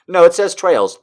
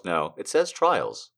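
First: "trails" said TRAYLZ; stated "trails". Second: "trials" said TRY-ulz; stated "trials". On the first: Retold or imitated. Reader arguing with self over the word, "trails" with an A. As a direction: insist higher on "trails", long A sound. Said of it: "I was like". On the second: Real, not acted. Reader correcting self, "trials" with an I vowel. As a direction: drop low and soft, "trials" with long I. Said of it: "trying to make it trails".

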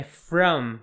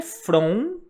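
First: "from" with an "uh" vowel, lips closed on m; correct FROM. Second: "from" with a rounded, nasal Portuguese "on"; wrong FROM. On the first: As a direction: say "from" as "frum", ending on a clear m. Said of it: "Tipo um a". ("from" com som de "a", fechando no m) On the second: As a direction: say "from" like Brazilian "fron", lips not closing on m. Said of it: "Então não é from". ("from" com som de "fron", errado) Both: Shown as a demonstration.

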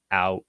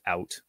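First: "out" with an open ow vowel; wide American diphthong in "out"; standard American pronunciation. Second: "out" with a raised Canadian vowel; Canadian pronunciation. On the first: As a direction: say "out" the American way, ah-oot. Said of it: "standard American accent". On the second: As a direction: say "out" the Canadian way, like uh-oot. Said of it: "I just did it without". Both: Shown as a demonstration.

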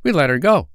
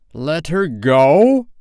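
First: High, louder pirate sidekick; pleased henchman, high and quick to please; complacent Smee. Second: Slow, loud, rising outrage; incredulous cry. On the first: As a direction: report it proudly, pitched high. Smee reports proudly to Hook. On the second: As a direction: stretch it out in disbelief, climbing loud. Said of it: "cried Hook". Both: A narrator's reading.

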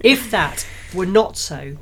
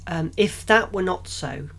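First: Slower careful retake; corrected reread. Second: Slowed, halting first take; stumbling reading. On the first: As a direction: reread the phrase slowly and properly. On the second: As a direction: stumble through it hesitantly. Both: Shown as a demonstration. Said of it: "So I'm good at reading".

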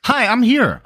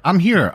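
First: High, loud, showy "Hi, I'm here."; excited entrance. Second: Said in the usual way. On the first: Acted. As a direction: make a big, bright entrance. Guest makes a big entrance.

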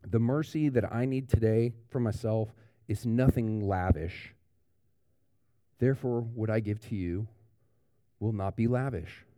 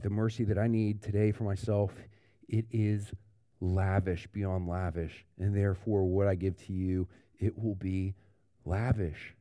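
First: Lightly voiced stingy inner thought; a mild grudging take on nothing lavish; stingy thinking. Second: Sincere. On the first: Pastor voicing the grudging churchgoer, mildly begrudging. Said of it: "Those who at the end of the day think". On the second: Shown as a demonstration. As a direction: let lavish sound generous and sure. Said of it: "But not here".

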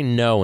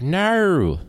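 First: Said in the usual way. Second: "No" high and drawn out in a put-on Australian accent. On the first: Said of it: "try to say no". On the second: Shown as a demonstration. Host showing how hard "No" is, strained Australian accent. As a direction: exaggerate the Australian vowel in "No". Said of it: "no in an Australian accent".

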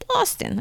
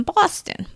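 First: Boston said in a lightly done, much higher Boston accent; a quick playful Boston accent on Boston. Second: Said in the usual way. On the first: Shown as a demonstration. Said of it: "Okay, that's my Boston accent". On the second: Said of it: "that's my Boston accent".

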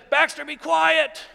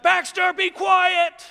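First: Mild yell at dog. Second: Higher and louder, a full-throated yell at the dog. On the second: Pastor retelling how he yells at his barking dog, shouting high and loud. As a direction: bellow it out as if the barking has gone on too long. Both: Retold or imitated. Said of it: "And I yell at my dog".

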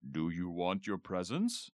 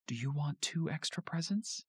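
First: A hint of a jolly Santa asking, rising on presents; lightly voiced Santa, teasing question; deep Santa voice. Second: Higher voice, leaning hard on "two" with a rising end; stress on two. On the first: Dad as Santa coaxes Tina, light Santa voice. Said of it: "In a deep Santa voice". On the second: Dad bribes Tina to vote, stress on "two". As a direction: dangle "two" as a tempting bribe. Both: A narrator's reading.

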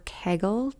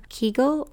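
First: Kegel said KAY-gul; alternate pronunciation. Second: Kegel said KEE-gul; first pronunciation variant. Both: Shown as a demonstration. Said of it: "just an accent variation".

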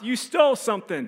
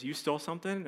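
First: High-pitched accusing shout; men's yell. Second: Hushed, disbelieving question; shocked mom. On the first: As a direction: imitate a guard calling out an accusation. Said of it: "these men's voice yell from behind us". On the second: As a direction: imitate mom asking softly in disbelief. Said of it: "that look on my mom's face". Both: Retold or imitated.

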